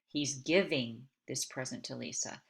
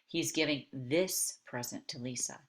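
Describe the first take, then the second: First: The stress is on giving. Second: The stress is on this.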